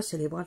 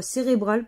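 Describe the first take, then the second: First: CÉRÉBRAL said with an L, as "célébral"; cérébral with L replacing the first R; mispronunciation. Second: CÉRÉBRAL with a clear R, "sé-ré-bral"; cérébral said "sé-ré-bral", fixing the slip; corrected pronunciation. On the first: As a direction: repeat the slip "sé-lé-bral" for cérébral. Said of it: "n'importe quoi". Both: Shown as a demonstration.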